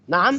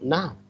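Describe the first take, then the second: First: It is said in an indignant, objecting tone. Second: It is said in a willing, agreeable tone. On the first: The speaker objects to an insult. "انا بعترض بكلمه نعم ديت نعم بالطريقه دي" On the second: The speaker accepts an invitation. "نفس الكلمه عطت ايه اداء مختلف ومعنى مختلف"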